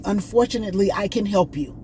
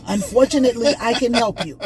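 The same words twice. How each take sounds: First: Put-on light Indian accent. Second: A hint of an Indian accent, raised higher and a bit louder; light Indian accent. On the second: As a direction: repeat the agent's words with a light Indian lilt. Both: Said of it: "I'm trying to talk to y'all at the way he was talking".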